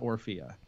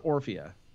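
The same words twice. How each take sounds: First: The stress is on a later syllable. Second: The stress is on the first syllable. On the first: The speaker calls it wrong. "not Orphea" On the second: The speaker calls it right. "Emphasis on the O R"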